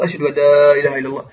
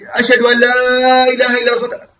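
First: The phrase is said in a low, quiet voice. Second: The phrase is said in a loud, raised voice. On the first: "ثم بصوت منخفض" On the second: "بصوت مرتفع"

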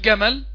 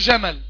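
First: It begins with a hard g stop. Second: It begins with an affricated j sound. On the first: The speaker calls it wrong. "لما اقول جمل يقول لي الشيخ عطش الجيم" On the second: The speaker calls it right. "عطش الجيم، اقول له جمل"

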